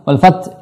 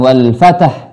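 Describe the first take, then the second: First: The final h sound is dropped. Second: An extra vowel is inserted between t and h. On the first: "hilang haknya, ini salah" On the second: "bukan wal fatah"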